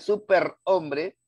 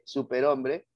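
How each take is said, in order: First: The r is pronounced as a strong trill. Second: The r is pronounced as a single tap. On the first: The speaker calls it wrong. "haciéndolo sonar como R" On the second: The speaker calls it right. "cuando en realidad es R"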